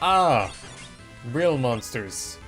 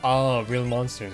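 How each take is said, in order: First: It is said with lively, excited energy. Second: It is said flatly, without much excitement. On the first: The speaker calls it right. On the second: The speaker calls it wrong. "I probably didn't say it excited enough"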